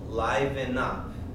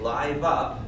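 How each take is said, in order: First: The first word has two syllables. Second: The first word has only one syllable. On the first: The speaker calls it right. "We need the syllable" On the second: The speaker calls it wrong. "if we say live up, then we miss a beat in the song"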